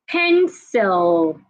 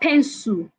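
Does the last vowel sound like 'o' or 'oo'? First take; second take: o; oo. First: The last vowel sounds like o. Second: The last vowel sounds like oo. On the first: The speaker calls it right. "The last sound in that word is not oo, it's o" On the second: The speaker calls it wrong. "So it's not pencil"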